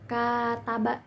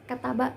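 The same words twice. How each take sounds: First: One vowel in the word is held long. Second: All vowels in the word are short. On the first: They wrote letters to each other. "yang ada rentang waktunya" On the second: He wrote. "tanpa adanya durasi"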